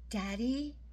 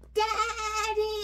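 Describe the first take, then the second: First: It is said very quietly. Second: It is yelled as loud as possible.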